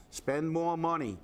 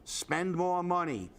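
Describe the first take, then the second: No difference in how they are said.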